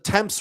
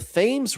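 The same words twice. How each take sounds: First: Thames is pronounced the British way. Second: Thames is pronounced the American way. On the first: The speaker calls it right. "It's the Thames River" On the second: The speaker calls it wrong. "The first time I ever saw the Thames River on a map, I said"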